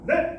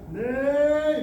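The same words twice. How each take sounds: First: The sound is thrown out in one quick burst. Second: The sound is slowly pulled out and drawn out. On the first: The speaker calls it right. "이렇게 딱 던져줘야지" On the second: The speaker calls it wrong. "이렇게 끄집어내는 건 아니라는 거"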